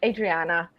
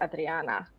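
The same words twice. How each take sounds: First: The R is plain, not rolled. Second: The R is rolled with the tongue. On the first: This is how Americans say the name. "nobody in America ever gets this, so I settled for" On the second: This is how the name is said at home. "Rolling the tongues is Adriana"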